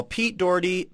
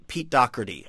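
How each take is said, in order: First: "Doherty" in two syllables, DOR-dee, no k sound; Doherty as spelled. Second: "Doherty" in three syllables with a hard k; supposed pronunciation. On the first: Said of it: "It looks like Doherty". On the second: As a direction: say "Doherty" as DOCK-er-tee. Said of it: "supposed to be pronounced Doherty". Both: Shown as a demonstration.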